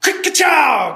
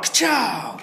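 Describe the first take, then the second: First: Loud, high ka-chow shouted as gunfire; loud vocal shotgun blast. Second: Echoing shot. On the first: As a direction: bark it out like a shotgun going off. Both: A narrator's reading. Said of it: "Shotgun fire".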